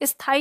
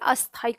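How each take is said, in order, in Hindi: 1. शब्द सीधे s की ध्वनि से शुरू होता है। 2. s की ध्वनि से पहले एक छोटा a स्वर आता है। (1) "स्थाई ना बोल के" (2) "इस ई से पहले यहां पर आ का साउंड लगा देते हैं"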